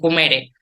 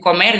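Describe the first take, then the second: First: The word ends with an added e vowel. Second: The word ends in an r sound. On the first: "dicen comere" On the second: "en vez de decir comer"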